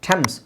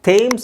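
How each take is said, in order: First: The vowel is a short 'e' sound. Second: The vowel is a long 'ay' sound. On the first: The speaker calls it right. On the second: The speaker calls it wrong. "ಥೇಮ್ಸ್ ಅಲ್ಲ"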